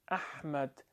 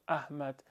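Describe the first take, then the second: First: The h is harsh and constricted in the throat. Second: The h is a light, breathy sound. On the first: "انگار چی بی نوعی گرفتگی صدا در حلق ایجاد دوله" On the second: "انگار الابیل های دو چشمی دیوخ احمد"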